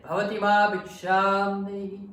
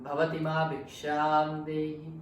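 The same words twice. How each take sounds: First: Shouted, higher call for alms; angry monk yelling for alms; louder voice. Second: Calling out for alms at the door, a bit louder; mock monk's call for alms; monk asking alms. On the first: Retold or imitated. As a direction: bellow the alms request at the house. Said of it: "this time in a louder voice". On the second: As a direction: chant the alms request to the house. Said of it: "He said".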